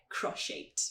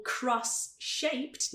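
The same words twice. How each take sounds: First: "cross-shaped" as cro-shaped; linked sounds. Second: "cross-shaped" slowly, both S and SH sounded; separated words. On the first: Teacher showing natural linking, "cross-shaped" as cro-shaped. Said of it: "A gente só fala". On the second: Teacher showing unlinked version, "cross-shaped" very slowly in two parts. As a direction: keep "cross" and "shaped" apart, drawn out. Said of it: "é muito devagar". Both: Shown as a demonstration.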